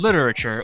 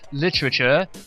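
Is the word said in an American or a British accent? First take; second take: American; British. First: It is said in an American accent. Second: It is said in a British accent.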